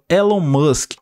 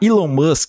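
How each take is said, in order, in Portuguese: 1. O nome é dito com sons portugueses. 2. O nome é dito com sons ingleses.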